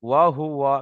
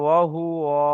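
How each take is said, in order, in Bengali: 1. স্বরধ্বনিগুলো ছোট, দ্রুত পড়া হয়। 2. একটি স্বরধ্বনি টেনে দীর্ঘ করা হয়। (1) "এখানে টান নেই" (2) "কেউ যদি বলে ওয়া হুয়া বলে টান দেয়"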